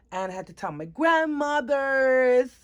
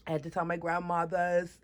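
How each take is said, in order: First: "grandmothers" stretched out, high and loud; dramatic announcement. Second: Said in the usual way. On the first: Real, not acted. Teenager who had to break the news, "grandmothers" dragged out high and loud. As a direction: draw out "grandmothers" with raised pitch and volume. Dramatic first take, repeated plainly after.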